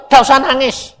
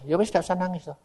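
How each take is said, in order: First: Loud, high retold order; raised-voice imitation of God; God's command. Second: Soft, resigned agreement; subdued mock-obedient reply; meek acceptance. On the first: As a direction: issue it forcefully as God's word. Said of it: "Tuhan ini bilang". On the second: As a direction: give in quietly. Speaker meekly accepts God's order.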